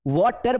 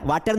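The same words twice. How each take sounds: First: "water" with a rounded aw in the first syllable; correct "water". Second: "water" with an open aa in the first syllable; wrong "water". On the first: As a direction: say WAW-ter, vowel rounded. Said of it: "pronunciation को हमें सही करना है". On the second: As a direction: say VAA-ter, the mispronounced way. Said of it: "वाटर नहीं बोलना है". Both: Shown as a demonstration.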